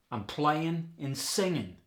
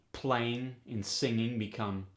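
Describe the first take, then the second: First: "playing and singing" as playin' and singin'; dropped G. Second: Said in the usual way. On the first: Shown as a demonstration. Teacher demos dropped G, slow. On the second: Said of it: "dropping the G".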